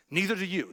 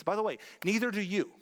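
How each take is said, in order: First: "Neither do you" repeated, louder, pointed; stress on neither. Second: Said in the usual way. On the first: Real, not acted. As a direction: hit "Neither" hard. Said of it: "repeated louder". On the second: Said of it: "repeated for emphasis".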